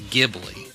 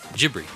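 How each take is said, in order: First: The word is said with Italian-style sounds. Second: The word is said with Japanese-style sounds. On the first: The name as it sounds in its original language. "the correct Italian pronunciation of the word is Ghibli" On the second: The name as it sounds to a Japanese speaker. "he pronounced it with Japanese phonetics"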